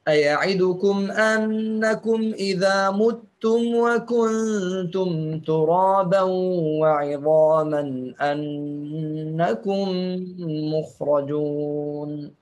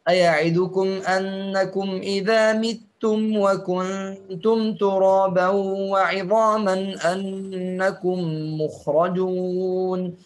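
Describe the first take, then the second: First: The word after 'idha' has a u vowel. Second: The word after 'idha' has an i vowel.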